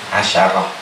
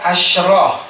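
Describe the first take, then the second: First: A short a vowel follows the sh sound. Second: No vowel follows the sh sound. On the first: The counted noun is masculine. "maka dipathahkan huruf shinnya" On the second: The counted noun is feminine. "maka disukunkan huruf shinnya"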